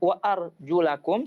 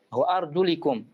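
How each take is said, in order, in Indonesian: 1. Vokal sebelum -kum adalah a. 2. Vokal sebelum -kum adalah i. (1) "boleh dibaca wa arjulakum seperti ini" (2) "boleh dibaca wa arjulikum"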